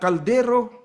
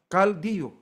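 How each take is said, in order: First: The R sound is clearly pronounced. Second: The R sound becomes a Y sound.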